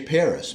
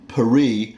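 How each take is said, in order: First: It is said the English way, with final s. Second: It is said the French way, like Pa-ree. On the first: This is the familiar name. "that's the way I've always pronounced it" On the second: This is the local name. "I'm not going to say Paris"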